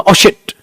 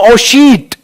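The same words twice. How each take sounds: First: "shit" with a brief i, as if something dropped; short sound. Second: "sheet" with a wrongly lengthened ee; long sound. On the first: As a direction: say "shit" with an unstretched vowel. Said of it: "इसको बोलते हैं हम short sound". ("shit" में छोटी इ, झट से) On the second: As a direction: stretch "sheet" out in place of the short word. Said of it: "मैं ये नहीं बोलूंगा". ("sheet" को खींचकर लंबी ई से) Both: Shown as a demonstration.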